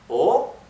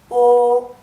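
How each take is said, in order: First: The pitch rises through the vowel. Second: The pitch stays high and level throughout. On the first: "es que sube solamente O" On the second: "es el tono alto y que no varía, es todo igual"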